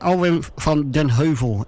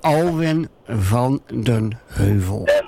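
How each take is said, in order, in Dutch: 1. De naam wordt snel uitgesproken. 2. De naam wordt langzaam uitgesproken. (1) "we zeggen het heel snel" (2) "we moeten het eigenlijk een beetje langzaam uitspreken"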